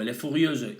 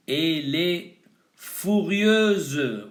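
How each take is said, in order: First: Said in the usual way. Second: "furieuse" stretched out slowly for learners; a teacher slowing down a new word for the class; slow demo. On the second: Shown as a demonstration. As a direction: spell out "Elle est furieuse" slowly, syllable by syllable. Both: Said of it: "un adjetivo".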